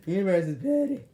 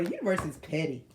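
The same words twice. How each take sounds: First: Louder, laughing through the line. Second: Said in the usual way. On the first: Real, not acted. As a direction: let the laugh break into it.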